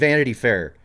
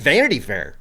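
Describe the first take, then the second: First: The stress falls in its usual place. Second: The stress falls on an unexpected syllable. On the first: The speaker calls it right. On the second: The speaker calls it wrong.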